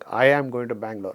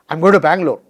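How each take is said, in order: First: It is said firmly and insistently. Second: It is said with excitement in the voice. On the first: The speaker will go despite being told not to. "the child is insisting" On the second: The speaker is happy about the trip. "you know excitement or something in, in the voice"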